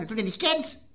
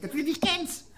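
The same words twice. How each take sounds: First: Lightly raised, tinny; a touch higher and tinny; high Lower Rhine voice. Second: Very high, far-off tinny voice; high metallic Lower Rhine voice. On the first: Retold or imitated. Barkeeper telling his friend, in a lightly raised tinny voice. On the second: Shown as a demonstration. Showing how Lower Rhine people talk, in a high metallic voice. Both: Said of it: "so ganz hoch und Metallen sprechen".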